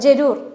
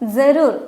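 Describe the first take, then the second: First: The word begins with a plain j sound. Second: The word begins with a buzzing z sound. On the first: "ജരൂർ എന്നും പറയാം" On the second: "ജായും സായും കൂടിയാണ് അതിനെ pronounce ചെയ്യുക"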